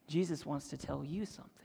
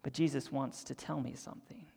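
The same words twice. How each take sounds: First: "you" lifted with a rising tune; voiced, pointing "you" at the listeners; the voiced take that turns the word to "you"; stress on you. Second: Hushed whisper, "me" kept soft; whispering "tell me something" before saying it aloud; whispered aside. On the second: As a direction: breathe it out as a whisper. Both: Shown as a demonstration.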